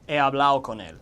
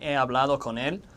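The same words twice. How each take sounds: First: The d in hablado is dropped, Dominican-style. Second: The d in hablado is clearly pronounced.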